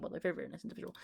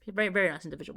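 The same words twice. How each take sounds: First: Breathy whispered aside, much softer; whispered repeat. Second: Said in the usual way. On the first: Real, not acted. Whispering the compliment again to the viewers.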